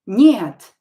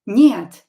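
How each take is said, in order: The two takes are said the same way.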